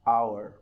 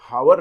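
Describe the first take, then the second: First: The word begins with a vowel sound. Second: The word begins with an h sound. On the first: The speaker calls it right. "Correct pronunciation is आवर" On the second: The speaker calls it wrong. "हावर नहीं बोलिएगा"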